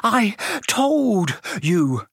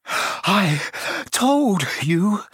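First: High, very slow, a breath between words; winded, drawn-out reproach; gasping. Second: Higher, gasping for breath; breathless and reproachful. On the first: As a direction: gasp each word out past a stitch. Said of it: "Hermione gasped, clutching at the stitch". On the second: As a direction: gasp out each word separately. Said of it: "Hermione gasped". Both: Acted.

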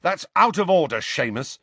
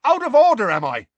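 First: Firm, raised-voice reproach; mounting anger. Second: Very high, loud incredulous retort; indignant shout. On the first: Ron reproaches Seamus for insulting Harry, anger mounting. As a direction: tell him off with a touch of anger. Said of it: "ears were starting to glow red". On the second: Seamus throws Ron's words back, shouting indignantly. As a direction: shout it back as an outraged question. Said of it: "shouted Seamus". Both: A narrator's reading.

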